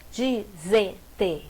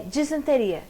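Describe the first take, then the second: First: Slow disenteria, di-sen-te-ri-a with pauses; syllable by syllable. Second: Said in the usual way. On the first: Shown as a demonstration. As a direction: split disenteria into five separate syllables. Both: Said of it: "como separa".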